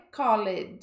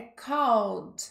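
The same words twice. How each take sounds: First: Called with the E sounded, two syllables, kol-ed; deliberately wrong called, E pronounced; wrong pronunciation. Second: Called as one syllable, kold, silent E, said slowly; careful model called, kold; correct pronunciation. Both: Shown as a demonstration. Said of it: "cuidado com a pronúncia".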